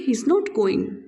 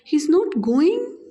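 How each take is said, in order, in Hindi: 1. अंत में आवाज़ नीचे जाती है। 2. अंत में आवाज़ ऊपर जाती है। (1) "सिंपल पढ़ते हैं" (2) "राइजिंग टोन के साथ"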